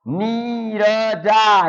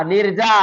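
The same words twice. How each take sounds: First: Very slow, syllables apart; slow separated syllables. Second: Said in the usual way. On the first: Shown as a demonstration. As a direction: split the word into its sounds. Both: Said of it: "मतलब इसे आप मिला के बोलेंगे".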